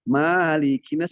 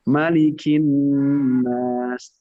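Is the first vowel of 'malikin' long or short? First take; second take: long; short. First: The first vowel is drawn out long. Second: The first vowel is held short. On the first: This follows a different transmitted reading. "Tapi kalau ingin panjang" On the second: This follows the Hafs from Asim reading. "malikin nasnya pendek. Satu harokat saja"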